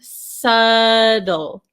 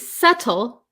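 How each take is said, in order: First: The T is pronounced as a quick flap. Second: The T is pronounced as a clear T. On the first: "In American English, this T becomes a flap T" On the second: "we have this T sound... So you could say subtle"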